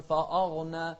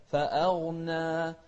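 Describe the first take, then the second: First: فأغنى with the hamza vowel wrongly dark and heavy; mispronunciation demo. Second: Slow chanted فأغنى with a light, open hamza vowel; corrected pronunciation. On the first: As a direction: thicken the "a" of فأغنى like "fa-awghna". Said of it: "ما تقول". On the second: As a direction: keep the "a" in فأغنى thin before the heavy غ. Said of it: "لا". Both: Shown as a demonstration.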